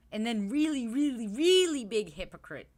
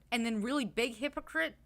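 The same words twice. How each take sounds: First: "really, really" hit harder and louder; stress on really, louder each time. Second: Said in the usual way. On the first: Shown as a demonstration. Escalating really, really big hypocrite.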